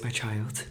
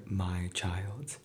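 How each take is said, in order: First: Put-on sugary mother calling her child; mother's sweet voice. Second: Said in the usual way. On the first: A narrator's reading. Greedy mother suddenly fond of her daughter, coaxing. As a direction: coax it like a newly fond mother.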